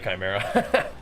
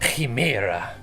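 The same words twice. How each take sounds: First: The first vowel does not sound like 'he'. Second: The first vowel sounds like 'he'. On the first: "Most people will pronounce it Chimera" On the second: "The C is silent, the I sounds like he"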